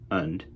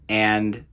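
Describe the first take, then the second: First: The word is said with a reduced vowel. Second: The word is said with a full vowel.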